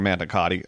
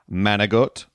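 First: The word is said in full, ending in a vowel. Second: The word is clipped, with no final vowel.

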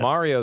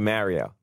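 First: It is pronounced the general American way. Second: It is pronounced the New York way. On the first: The speaker calls it wrong. "Mario is the wrong way the country says it" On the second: The speaker calls it right. "We say Mario"

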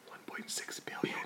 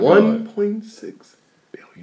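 First: It is said in a whisper. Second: It is said in a normal voice.

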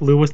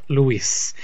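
First: The name is said with an English pronunciation. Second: The name is said with a Spanish pronunciation. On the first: The speaker calls it right. "pronounced like Lewis" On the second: The speaker calls it wrong. "not Luis"

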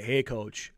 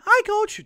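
First: The voice is low and deep. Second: The voice is very high-pitched. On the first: This is the voice after it changed. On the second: This is the voice before puberty.

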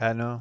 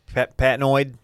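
First: The name ends without any D sound. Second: The name ends with an audible D sound. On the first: "Like the D is just silent" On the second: "What would be the alternative pronunciation?"

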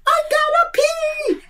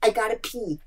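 First: It is said much louder. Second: It is said at normal, quiet volume.

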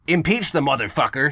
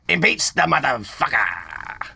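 First: It is said in a plain, normal voice. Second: It is said in a put-on, jivey character voice.

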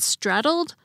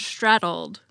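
First: It begins with a plain s sound. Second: It begins with an sh sound. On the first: "Instead of" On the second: "as if they actually began with an SH"

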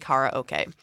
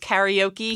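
First: It is pronounced with a Japanese pronunciation. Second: It is pronounced with an American English pronunciation. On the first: The speaker calls it right. "but it is actually karaoke" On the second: The speaker calls it wrong. "It's often referred to as karaoke here in the States"

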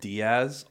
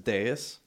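First: The name is said like 'dee-ahz'. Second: The name is said like 'day is'. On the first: The speaker calls it wrong. "I get Diaz a lot" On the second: The speaker calls it right. "because it's dais"

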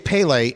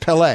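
First: The stress is on the first syllable. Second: The stress is on the second syllable. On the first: The speaker calls it wrong. "I always say Pele, and we just had a caller call in and say that I'm saying it wrong" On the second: The speaker calls it right. "On the second syllable"

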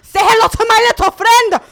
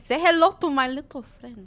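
First: It is said in an angry tone. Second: It is said in a calm tone.

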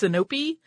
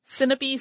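First: The stress is on the middle syllable. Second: The stress is not on the middle syllable. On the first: "Some put an accent on the middle syllable" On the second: "sounds more natural to me"

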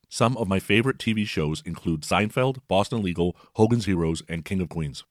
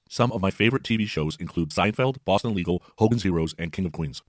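First: The speech plays a bit faster than normal. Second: The speech plays much faster than normal. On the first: "Here's the same message at 1.25x" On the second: "And the same message at 1.5x"

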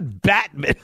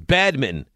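First: The first syllable ends in a t sound. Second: The first syllable ends in a d sound. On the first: The speaker calls it wrong. "He's calling it batminton. It's not batminton" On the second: The speaker calls it right. "Bad. It's badminton"

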